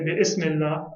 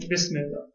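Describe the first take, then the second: First: The initial vowel of ism is pronounced separately. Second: The initial vowel of ism is dropped and joined. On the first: The speaker calls it wrong. "I don't say bi ismillah" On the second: The speaker calls it right. "I say bismillah"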